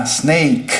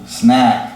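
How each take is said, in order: First: Snake with a gliding ei vowel, stopping on the K; double vowel snake. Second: Snack with a single short A vowel; one clipped vowel in snack. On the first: Teacher contrasting snake, gliding vowel ending on K. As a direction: glide the vowel in snake and cut at K. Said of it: "eu termino no som da letra K". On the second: Teacher contrasting snack, single short vowel. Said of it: "snack é um som só". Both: Shown as a demonstration.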